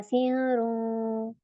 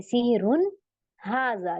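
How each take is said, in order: First: सिहरुन dragged very slowly with the noon hidden; wrong way. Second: सिहरुन हाजा with a clear, plain n and no hum; simple reading. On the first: Teacher showing students the wrong reading, slow and drawn. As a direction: mispronounce सिहरुन by swallowing the n into a hum. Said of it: "मैंने इसको ऐसे नहीं पढ़ा". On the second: Teacher giving students the correct reading, plain and simple. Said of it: "simple पढ़ेंगे". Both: Shown as a demonstration.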